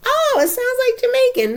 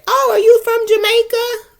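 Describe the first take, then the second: First: High, loud, eager mock guess; old snap guess. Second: High, loud, eager mock question; old blunt question. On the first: She mocks her knee-jerk guess on hearing an accent, high and eager. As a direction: blurt it out like a sure guess. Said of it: "I'm like". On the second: She mocks her old habit of asking about Jamaica, high and eager. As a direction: chirp it out as if thrilled to guess. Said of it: "I used to say".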